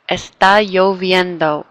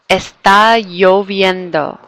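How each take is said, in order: The two takes are said the same way.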